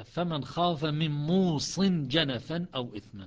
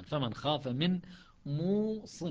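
First: Slow, louder Quran recitation with موص as mūṣin; Hafs recitation. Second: موص recited as muwaṣṣin, open wa and doubled ṣ; Shuba recitation. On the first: Teacher reciting the verse to students in Hafs's reading, slow and louder. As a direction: recite موص as mūṣin, long ū and light ṣ, slowly. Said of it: "فعندنا أما قراءة حفص". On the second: Teacher reciting the verse to students in Shuba's reading, muwaṣṣin. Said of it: "وشعبة يقرأ موص". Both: Shown as a demonstration.

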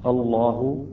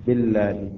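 First: الله with a thick, dark L; heavy lam. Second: بالله with a thin, light L; light lam. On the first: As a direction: say الله with a full, velarized double lam. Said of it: "الأولى تفخيم، الثانية ترقيق". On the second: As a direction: say بالله with a clear, un-darkened lam. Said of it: "الثانية ترقيق". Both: Shown as a demonstration.

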